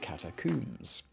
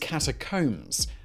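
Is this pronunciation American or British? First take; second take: British; American. First: It is said with a British pronunciation. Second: It is said with an American pronunciation. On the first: "the British would say" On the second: "The American way, which is not how I would pronounce it"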